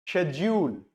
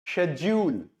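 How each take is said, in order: The two takes are said the same way.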